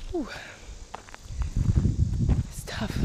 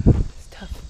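First: Gasping between phrases; breathless. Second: Whispered, out of breath; panting the words out; gasping between phrases. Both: Real, not acted. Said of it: "didn't expect it to be this hard".

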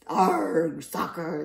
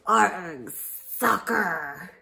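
First: Loud answering cry; crew yell. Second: Loud pirate cry; pirate yell. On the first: Crew echoing their captain, loud yell. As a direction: shout it back as a crew. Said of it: "the crew yelled". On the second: Captain kicking the ball, loud pirate yell. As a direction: yell it as you kick. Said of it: "kicked the ball and yelled". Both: Acted.

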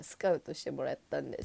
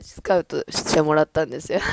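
First: Said in the usual way. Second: Much louder, insisting on it; loud emphatic repeat. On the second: Real, not acted. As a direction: say it again and push it out loud. (声を張って強調する言い直し)

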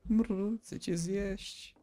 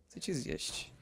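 First: Slow, drawn-out purr into a hungry threat; mock purring zombie. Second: Soft breathy whisper, no voice; whispered zombie threat. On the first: Gamer voicing a zombie that purrs at him, slow and hungry. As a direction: purr it slowly like a lovesick monster. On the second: Pretend. Gamer whispering the zombie's threat to himself, softer. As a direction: whisper it like a creeping monster.

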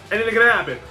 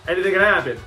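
No difference in how they are said.

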